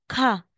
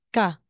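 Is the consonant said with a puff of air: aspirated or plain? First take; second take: aspirated; plain. First: The consonant has a strong puff of air. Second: The consonant has no puff of air. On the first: The speaker calls it wrong. "aspirated sounds" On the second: The speaker calls it right.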